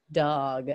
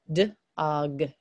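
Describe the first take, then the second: First: "dog" as one low, deliberate word; blended word. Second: "D-og" low, split after the d; sounding out. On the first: Teacher blending the word for students, said whole. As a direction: say "dog" whole, lower in pitch. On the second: Teacher showing students how dog is built, sounded out. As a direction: separate "D-og" into d and og. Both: Shown as a demonstration.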